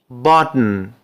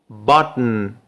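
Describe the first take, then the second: No difference in how they are said.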